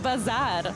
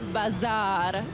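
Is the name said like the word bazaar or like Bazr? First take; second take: Bazr; bazaar. First: It sounds like the spelling B-A-Z-R. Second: It sounds like the ordinary word bazaar. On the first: The speaker calls it right. "It's B A Z R" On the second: The speaker calls it wrong. "It's not bazaar"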